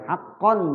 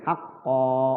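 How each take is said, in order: First: The word ends with an n sound. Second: The word ends with a long vowel.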